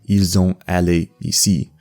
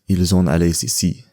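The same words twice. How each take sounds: First: The final consonants are dropped, words kept separate. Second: The final consonants are carried onto the next vowel. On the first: The speaker calls it wrong. "you don't read this phrase as" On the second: The speaker calls it right. "You read it as"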